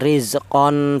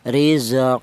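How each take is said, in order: First: The word ends with an n sound. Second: The word ends on a long open vowel. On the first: The speaker calls it wrong. "bukan rizqon" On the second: The speaker calls it right. "Jadi cara bacanya rizqa"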